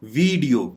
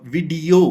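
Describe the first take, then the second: First: "वीडियो" with drawn-out vee; wrong pronunciation. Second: "वीडियो" as vi-DEE-o, short first vowel; correct pronunciation. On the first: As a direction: stretch the first vowel of "वीडियो", VEEE-dio. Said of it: "ये गलत pronounce". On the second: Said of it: "correct तरीका ये है". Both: Shown as a demonstration.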